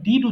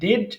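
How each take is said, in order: First: The ending has an 'i' vowel, like 'did'. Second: The ending has an 'e' vowel, like 'ded'. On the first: The speaker calls it right. "ডিড উচ্চারণ করতে হবে, এটাই সঠিক" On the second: The speaker calls it wrong. "যেটা বলছি ডেড, এটা ভুল"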